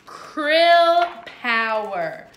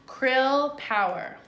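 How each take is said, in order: First: Slow, louder dramatic title announcement. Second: Said in the usual way. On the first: Shown as a demonstration. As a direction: announce it like a big show.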